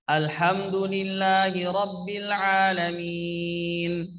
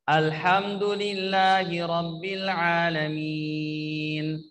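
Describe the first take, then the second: No difference in how they are said.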